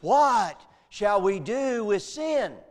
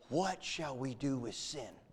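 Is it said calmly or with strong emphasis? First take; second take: strong emphasis; calmly. First: It is said loudly with strong emphasis. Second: It is said calmly, as a rhetorical question.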